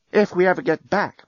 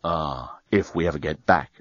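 First: Put-on lifted higher, a wistful young woman; Lucy's voice. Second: Dan's voice. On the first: Lucy dreaming of the rebuilt hotel, lifted higher. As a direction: voice Lucy a touch higher and hopeful. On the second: Dan echoing Lucy's hope, lower and quieter. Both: A narrator's reading. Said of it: "agreed Dan".

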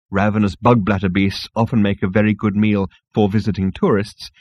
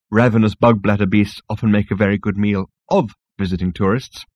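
First: Even reading, "for" set apart slightly; stress on "for". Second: "of" lengthened and set apart; stress on "of". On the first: Narrator quotes the disputed guide entry, lightly stressing "for". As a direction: lightly mark the word "for". Misprinted sentence set against the correction. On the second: Narrator gives the intended wording, stressing "of". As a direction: lean on the word "of". Correct sentence contrasted by one word. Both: A narrator's reading.

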